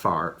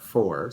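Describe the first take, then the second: First: The word is said with the vowel of 'far'. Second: The word is said with the vowel of 'four'. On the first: The speaker calls it wrong. "not far" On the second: The speaker calls it right. "I can just pronounce it as Woolfolk four"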